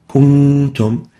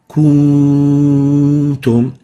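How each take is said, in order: First: The nasal n sound is held only briefly. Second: The nasal n sound is stretched out long. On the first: The speaker calls it right. "we need to avoid exaggerating the ghunna and stretching it more than required" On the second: The speaker calls it wrong. "if we extend the ghunna of the noon, it will sound like kuntum"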